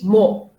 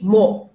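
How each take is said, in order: First: It is said in a British accent. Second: The same.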